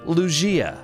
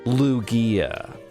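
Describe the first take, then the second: First: The name is said unlike 'loogie', with a grander G. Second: The name is said to sound like 'loogie'. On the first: This is the pronunciation the speaker chooses. The speaker calls it right. "I decide it's pronounced Lugia" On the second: This is how most people say it. The speaker calls it wrong. "Like a loogie, like a booger"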